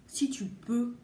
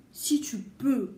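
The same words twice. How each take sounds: The two takes are said the same way.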